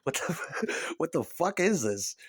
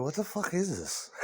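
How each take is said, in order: First: Laughing through the question; mock outrage broken by laughter; laughing disbelief. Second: Softer, drawn-back disbelief; a quiet puzzled dad asking about the record; a hint of a grumbling father; baffled father. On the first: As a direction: crack up while asking it. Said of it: "That's what I said when it came out". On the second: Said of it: "That's what your father said".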